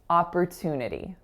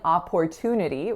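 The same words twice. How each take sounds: First: The second syllable sounds like per. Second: The second syllable sounds like port. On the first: The speaker calls it right. "we're saying opper, as if it were spelled P E R" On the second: The speaker calls it wrong. "we're not saying opportunity"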